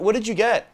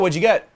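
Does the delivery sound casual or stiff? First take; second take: stiff; casual. First: It is said stiffly and hesitantly, like to strangers. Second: It is said casually, like to a friend. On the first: The speaker is a stranger to her. The speaker calls it wrong. "That comes off as stiff" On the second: The speaker already knows her. The speaker calls it right. "Did you see how I said it there?"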